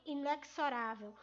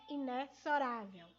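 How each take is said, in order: First: Inexorável with x said as ks; mispronunciation. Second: Inexorável with x said as z; correct pronunciation. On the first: Teacher showing the mistake many make, inexorável with ks. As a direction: say inexorável with a hard ks in the middle. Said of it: "uma maneira equivocada de pronunciar". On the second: Teacher giving pupils the correct form, inexorável with z. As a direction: say inexorável with a buzzing z for the x. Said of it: "A pronúncia correta é". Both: Shown as a demonstration.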